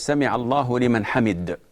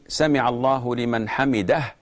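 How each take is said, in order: First: The last word is cut short at the end. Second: The last word ends with its full final syllable. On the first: The speaker calls it wrong. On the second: The speaker calls it right.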